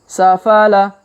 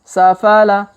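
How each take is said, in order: The two takes are said the same way.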